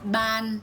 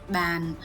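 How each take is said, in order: First: The pitch stays level through the word. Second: The pitch falls through the word. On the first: "So ban with a neutral tone" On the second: "if we put a downtone"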